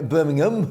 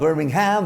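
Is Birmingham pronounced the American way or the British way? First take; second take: British; American. First: It is said with a British pronunciation. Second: It is said with an American pronunciation. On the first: The speaker calls it right. "as we pronounce it over here in the U K" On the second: The speaker calls it wrong. "not Birmingham"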